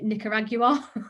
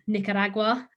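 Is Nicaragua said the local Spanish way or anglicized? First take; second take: anglicized; Spanish. First: The name is said in an anglicized way. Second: The name is said the local Spanish way. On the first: The speaker calls it wrong. "I was pronouncing it Nicaragua" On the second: The speaker calls it right. "it was pronounced Nicaragua"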